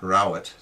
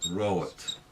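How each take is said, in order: First: The vowel is a short 'ow' sound. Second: The vowel is a long 'or' sound. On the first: The speaker calls it wrong. "Not rowet" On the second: The speaker calls it right. "but rowet. Goes long"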